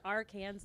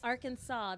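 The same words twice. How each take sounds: First: The ending is pronounced like 'Kansas', as spelled. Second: The ending is not pronounced like 'Kansas'. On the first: The speaker calls it wrong. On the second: The speaker calls it right.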